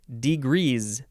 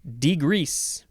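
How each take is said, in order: First: The s in the word sounds like z. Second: The s in the word sounds like s.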